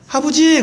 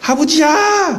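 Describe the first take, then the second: First: It is a plain, ordinary call. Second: It is a happy, affectionate call.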